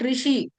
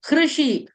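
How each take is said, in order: First: It begins without any h sound. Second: It begins with a clearly audible h sound. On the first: The speaker calls it wrong. "It's not rishi" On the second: The speaker calls it right. "Ha sound should be heard"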